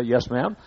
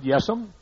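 First: Said in the usual way. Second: Lightly voiced southern "Yes'm", a soft drawl; a touch of Southern "Yes'm". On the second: Shown as a demonstration. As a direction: say "Yes'm" the Southern way, clipped to one word. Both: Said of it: "That's a southern way to say".

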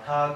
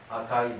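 First: 赤 as "akaa"; 赤 with i dropped, ending in long aa; long-a dialect form. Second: Said in the usual way. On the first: Shown as a demonstration. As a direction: stretch the final a of 赤. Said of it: "というふうになる". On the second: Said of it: "が赤というふうになる".

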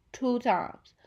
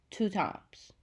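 First: TWO times said higher and louder, stressing TWO; emphatic repeat. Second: Said in the usual way. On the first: Real, not acted. Vlogger stressing how many redos it took, TWO times. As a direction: hit TWO hard the second time.

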